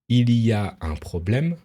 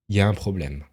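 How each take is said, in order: First: Every syllable is clearly and slowly pronounced. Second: It is said quickly with syllables run together. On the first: "on va toujours prononcer une phrase comme" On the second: "de manière plus rapide, c'est-à-dire"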